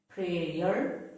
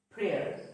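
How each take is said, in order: First: "prayer" in two syllables, pray-er, rising; wrong pronunciation. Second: "prayer" as one syllable, like prair, falling; correct pronunciation. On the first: Teacher showing learners the mistake, "prayer" as pray-er. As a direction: stretch "prayer" into pray-yer with the Y heard. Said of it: "It is not pronounced as". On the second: Teacher showing learners the correct way, "prayer" with Y silent. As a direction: say "prayer" short, no Y sound. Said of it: "The Y is silent". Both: Shown as a demonstration.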